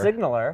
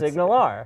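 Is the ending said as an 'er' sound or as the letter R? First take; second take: er sound; letter R. First: The ending is said as an 'er' sound. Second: The ending is said as the letter R. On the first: The speaker calls it wrong. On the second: The speaker calls it right. "it's Signal R"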